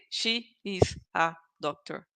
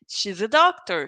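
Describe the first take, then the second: First: Each word is said separately, with full 'is'. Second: 'She's a' is contracted and linked with a z sound. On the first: The speaker calls it wrong. "I don't say she is a doctor. People will never say like that" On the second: The speaker calls it right. "we need to make the connection"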